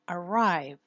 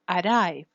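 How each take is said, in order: First: The R is a smooth gliding approximant. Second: The R is a quick flapped tap. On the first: The speaker calls it right. "You use the postalveolar approximant" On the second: The speaker calls it wrong. "not arrive"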